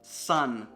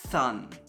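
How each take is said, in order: First: The word begins with a clear s sound. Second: The word begins with a lisped th sound. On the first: "the word sun" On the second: "might become thun"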